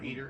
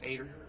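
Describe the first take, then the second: First: The name starts with an 'ee' vowel. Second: The name starts with an 'ay' vowel. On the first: The speaker calls it wrong. "or Eater" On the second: The speaker calls it right. "It's Ader"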